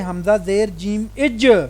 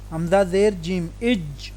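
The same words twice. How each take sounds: First: The final consonant is released with a jerky bounce. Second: The final consonant is held smoothly without a bounce. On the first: The speaker calls it wrong. "लफ्ज़ का झटका होता है जैसे ... ऐसे नहीं करना" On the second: The speaker calls it right. "ठीक है"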